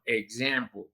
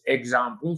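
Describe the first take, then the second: First: Example said ig-ZAM-ple, open English vowel; the correct American example. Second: Example with Spanish vowels, eg-SAM-ple; the wrong Spanish example; Spanish-style example. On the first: Teacher giving the right English pronunciation of example. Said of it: "sino example". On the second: Teacher showing the mistaken Spanish pronunciation. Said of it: "no es example". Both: Shown as a demonstration.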